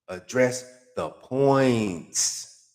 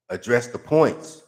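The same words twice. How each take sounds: First: Very slow, "points" stretched and falling; slow exasperated demand; drawn-out command. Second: Slow, "points" hit; firm demand; emphatic command. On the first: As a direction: drag out "Address the points.". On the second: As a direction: spell out "Address the points.". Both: Acted.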